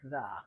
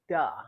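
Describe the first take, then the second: First: The word begins with a voiced th sound. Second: The word begins with a d sound. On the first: The speaker calls it right. "instead of the" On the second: The speaker calls it wrong. "they might be using a D sound"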